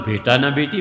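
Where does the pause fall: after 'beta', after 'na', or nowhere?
nowhere. It is said evenly, with no internal pause. Neither a son nor a daughter. "और नहीं होता तो"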